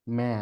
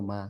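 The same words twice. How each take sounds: First: ম্যা, a short "mæ", not a round "ma"; Chinese-style ma. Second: Said in the usual way. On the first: Shown as a demonstration. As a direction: say ম্যা with the vowel opened toward a flat "æ". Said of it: "মানে একটু অ্যা যোগ থাকে". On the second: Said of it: "ওরা মা না, ওরা বলে ম্যা".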